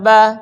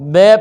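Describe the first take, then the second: First: The vowel is an open ah sound. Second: The vowel is bent toward an ay sound. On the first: The speaker calls it right. "ज़बर को सीधा मुंह खोल कर अदा किया जाए" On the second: The speaker calls it wrong. "बा को बे पढ़ते हैं"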